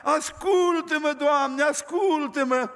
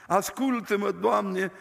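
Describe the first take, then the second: First: Slow, higher tearful plea; weeping prayer. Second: Joking prayer. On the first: Old man begging God for his children, slow tearful plea. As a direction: beg God, voice heavy with tears. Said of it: "Și plângea". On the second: Preacher retelling the joke prayer, light and playful. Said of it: "era o glumă frumoasă". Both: Retold or imitated.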